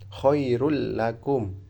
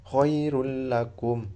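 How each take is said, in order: Both takes have the same delivery.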